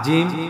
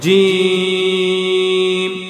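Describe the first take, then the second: First: The vowel is kept short, not drawn out. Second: The vowel is drawn out for three counts. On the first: The speaker calls it wrong. "আমি যে এভাবে পড়লাম আসলে কিন্তু এভাবে পড়ার নিয়ম না" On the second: The speaker calls it right. "তিন আলিফ টান দিতে হবে"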